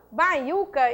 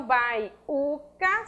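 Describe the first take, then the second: First: Said in the usual way. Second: "baiuca" split as bai - u - ca; slow, separate beats on bai, u, ca; syllable by syllable. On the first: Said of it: "eu tenho sílaba tônica". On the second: Shown as a demonstration. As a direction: pause between each syllable of "baiuca". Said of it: "sílaba prosódica".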